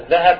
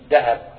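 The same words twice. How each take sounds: First: The word begins with a voiced 'th' sound. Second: The word begins with a plain 'd' sound. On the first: This is the standard form of the word. "عندنا مثلا ذهب" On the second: This is how the word is said locally. "نقول ذهب"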